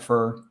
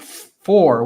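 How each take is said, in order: First: The word is said with a reduced vowel. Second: The word is said with its full vowel.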